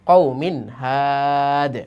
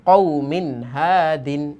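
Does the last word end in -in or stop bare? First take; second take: bare; -in. First: The last word stops bare, without -in. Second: The last word keeps its final -in ending. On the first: The reader stops at this word. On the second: The reading continues without stopping.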